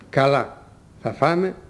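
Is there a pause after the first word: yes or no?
yes. There is a pause after the first word. The first word is a separate reply meaning okay. "Στα πρώτα, μετά το «καλά» ακολουθεί παύση"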